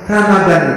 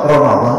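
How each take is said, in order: First: The middle d is plain and light. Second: The middle d is heavy and emphatic. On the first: It means sore or red eyes. The speaker calls it wrong. "Ramadan itu pakai dal" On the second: It means burning, as in burning away sins. The speaker calls it right. "Kalau pakai dot, Ramadan itu artinya membakar"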